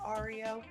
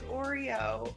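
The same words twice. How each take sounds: First: The first syllable sounds like 'ar'. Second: The first syllable sounds like 'or'. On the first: The speaker calls it wrong. "it was definitely A R E O" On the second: The speaker calls it right. "it's Oreo"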